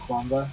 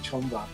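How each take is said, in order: First: The name begins with a kw sound. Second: The name begins with a ch sound. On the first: This is how Americans usually say it. "Americans will usually call it either Canva or Kwamba. I, I tend to call it Kwamba" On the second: This is how the company's home country says it. "I think it's actually Chomba"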